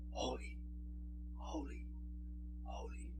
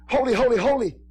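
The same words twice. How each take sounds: First: Barely voiced, far softer whisper of holy; whispered praise. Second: Shouted praise. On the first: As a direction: breathe the holies like a distant heavenly echo. Hear the seraphim in the Spirit. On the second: Retold or imitated. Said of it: "when the shouting of".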